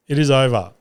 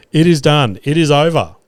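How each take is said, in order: First: Said in the usual way. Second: Triumphant. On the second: Retold or imitated. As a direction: proclaim it like a win. Celebrating the arrest.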